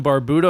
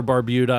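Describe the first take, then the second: First: Barbuda as bar-BOO-da. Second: Barbuda as bar-BYOO-da; y-glide in the middle of Barbuda; Barbuda with yoo. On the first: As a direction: say Barbuda with a plain "boo" in the middle. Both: Shown as a demonstration. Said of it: "I'm not sure how it's pronounced".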